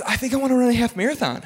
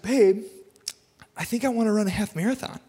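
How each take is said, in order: First: Quicker, higher quote of his wife, less put-on; wife retold. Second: Mock wife voice. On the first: Wife announcing her race plan to husband, brisk light imitation. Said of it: "My wife doesn't talk like that. But, like, she, uh, she goes". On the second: Wife pitching a half marathon to husband on the couch, mock wife voice. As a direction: imitate your wife with a slightly silly, higher delivery. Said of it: "I don't know why I talk like that. My wife doesn't talk like that".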